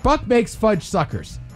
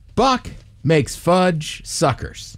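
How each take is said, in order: First: It is said fast. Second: It is said at a normal speed.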